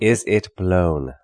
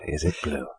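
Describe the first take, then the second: First: Blown stretched out slowly and spelled out; slowly, landing hard on blown; correcting the interviewer: dwell on blown; stress on blown. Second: Said in the usual way. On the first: Shown as a demonstration. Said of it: "No, it was blown". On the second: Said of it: "Not, is it blue?".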